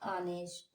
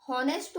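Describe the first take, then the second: First: The word begins with a vowel, no h. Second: The word begins with an h sound. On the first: The speaker calls it right. "एच का उच्चारण है ये silent होता है" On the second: The speaker calls it wrong. "हॉनेस्ट बोलते हैं कई लोग इसे, लेकिन हम इसे हॉनेस्ट नहीं बोलते"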